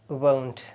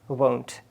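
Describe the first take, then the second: The two takes are said the same way.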